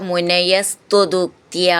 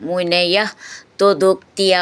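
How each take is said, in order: First: The two words are joined with an added s. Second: The two words are said separately.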